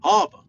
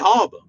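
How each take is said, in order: First: It is said in a New York accent. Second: The same.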